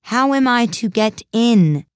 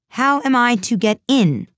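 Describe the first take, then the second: First: Loud, high, drawn-out demand; louder tone. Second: Raised, louder and higher demand; repeated aloud. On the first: Alice asks the footman once more, in a louder tone. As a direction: ask it slowly and much louder. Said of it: "in a louder tone". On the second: Alice repeats her question to the footman, aloud and insistent. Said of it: "she repeated aloud". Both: A narrator's reading.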